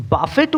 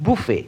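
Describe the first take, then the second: First: বাফেট said like "buffet" with a hard T at the end; wrong pronunciation. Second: বুফে said "boo-fay" with no T; correct pronunciation. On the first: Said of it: "তাহলে তুমি ভুল উচ্চারণ করছো". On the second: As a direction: say the right বুফে with a silent T. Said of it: "সঠিক উচ্চারণটি হবে". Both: Shown as a demonstration.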